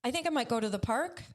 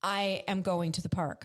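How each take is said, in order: First: Quick tentative statement rising on "park"; questioning uptalk. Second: Firm, measured statement falling on "park"; downward statement. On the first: Showing how women are taught to speak, rising questioning tone. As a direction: lift "park" as if asking a question. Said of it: "raise their voice at the end of the sentence". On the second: Showing the power in men's speech, voice going down. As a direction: bring the voice down to a full stop on "park". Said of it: "Their voice will actually go down". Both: Shown as a demonstration.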